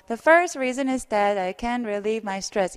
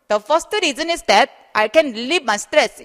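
First: It has a mild Korean-English accent. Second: It has a heavy Korean-English accent. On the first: The speaker calls it right. "이 정도는 하세요" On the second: The speaker calls it wrong. "이런 건 안 돼. ... 너무 콩글리시 같은 발음"

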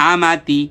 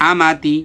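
Both takes have the same delivery.

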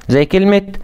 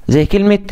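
No difference in how they are said.

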